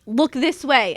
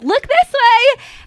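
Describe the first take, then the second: First: It is said in a mean tone. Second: It is said in a friendly tone.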